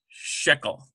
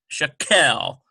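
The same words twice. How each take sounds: First: The stress is on the first syllable. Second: The stress is on the last syllable. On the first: The speaker calls it right. "the sh and then k is lighter" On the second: The speaker calls it wrong. "not shekel"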